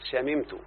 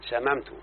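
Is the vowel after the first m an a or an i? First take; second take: i; a. First: The first m is followed by an i vowel. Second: The first m is followed by an a vowel. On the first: This is the more eloquent classical form. The speaker calls it right. "والأفصح في الماضي شممت بكسر الميم" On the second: This is how common people say it. The speaker calls it wrong. "لا فتحة طبعا بيرد يعني على كلام العوام"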